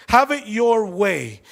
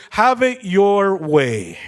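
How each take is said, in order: First: "Have it your way" drawn out slowly; slow slogan. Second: Slow, drawn-out English slogan. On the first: ("Have it your way" dicho lento) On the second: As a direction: stretch out the slogan like an ad. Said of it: "el lema de Burger King". (lema de Burger King, lento y alargado) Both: Shown as a demonstration.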